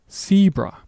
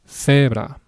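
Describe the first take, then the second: First: The vowels are gliding, English-style sounds. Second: The vowels are short, pure and unrounded. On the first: "In English, you would say zebra" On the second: "The example word is the word zebra"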